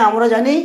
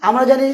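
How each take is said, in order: No difference in how they are said.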